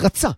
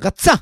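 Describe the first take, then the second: First: The stress is on the first syllable. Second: The stress is on the last syllable. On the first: He wanted. "להפך, לרוץ, לרצות. זה רצה" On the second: She runs. "לרוץ זה מלרע"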